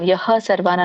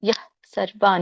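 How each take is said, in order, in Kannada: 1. ಪದ ಪೂರ್ಣ 'ha' ಉಚ್ಚಾರಾಂಶದಲ್ಲಿ ಕೊನೆಗೊಳ್ಳುತ್ತದೆ. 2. ಪದ ಹಗುರವಾದ ಉಸಿರಿನ 'h' ನಲ್ಲಿ ಕೊನೆಗೊಳ್ಳುತ್ತದೆ.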